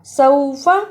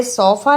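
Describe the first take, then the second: First: सौफ़ा with a clear "aw" diphthong; correct leen glide. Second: सौफ़ा with a flattened "o" vowel, said quickly; wrong sofa. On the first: Teacher giving the correct form, सौफ़ा with aw glide. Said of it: "ये हरफे लीन है". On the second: Teacher showing the mistake, सौफ़ा as quick "sofa". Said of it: "इसे सौफ़ा नहीं पढ़ना". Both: Shown as a demonstration.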